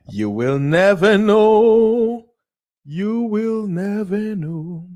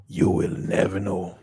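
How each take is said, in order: First: High, slow drawn-out warning; slow high mock-ominous. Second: Said in the usual way. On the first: Dramatic repeat of catchphrase.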